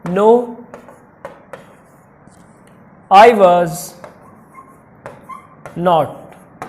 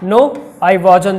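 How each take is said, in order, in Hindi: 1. was और not दो पूरे शब्दों की तरह बोले जाते हैं। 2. was और not एक छोटे शब्द में मिल जाते हैं।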